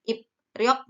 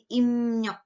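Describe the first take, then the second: First: Said in the usual way. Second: "imnyok" with p-r turned into m-ny; nasal assimilation, "imnyok" for ipryok; nasalised pronunciation. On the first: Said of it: "menjadi imnyok". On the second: Shown as a demonstration. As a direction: say "imnyok" slowly, nasal m then ny. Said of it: "nasal semua".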